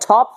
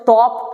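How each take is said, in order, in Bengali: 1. 't' মহাপ্রাণ, বাতাসের ঝলক আছে। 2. 't' অল্পপ্রাণ, বাতাসের ঝলক নেই। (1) "টকে ঠ পড়তে হবে" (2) "আমরা এই স্টাইলে পড়লে কিন্তু আমাদের মুখে জড়তা দূর হবে না"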